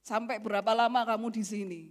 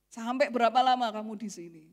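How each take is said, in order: Both takes have the same delivery.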